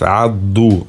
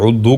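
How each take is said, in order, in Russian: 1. Первый гласный — открытый звук a. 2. Первый гласный — огубленный звук u. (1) "над айн идет алиф, адду" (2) "Некоторые удду говорят неправильно, это грубая ошибка"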